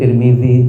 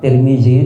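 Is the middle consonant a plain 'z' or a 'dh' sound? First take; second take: dh; plain z. First: The middle consonant is a dh sound. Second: The middle consonant is a plain z sound. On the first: This is the original way of saying the name. "pakai zal ya sebenarnya" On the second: This is the usual local way of saying the name. "Indonesia kadung pakai Z"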